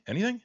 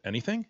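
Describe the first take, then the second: First: Pressing repeat, pitched way up. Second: Said in the usual way. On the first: Real, not acted. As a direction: ask it again much higher, insisting. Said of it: "host repeats question, pitch jumps". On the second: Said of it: "host repeats question to cohost".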